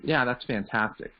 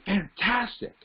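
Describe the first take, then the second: First: It is said with medium, ho-hum energy. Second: It is said with high, excited energy.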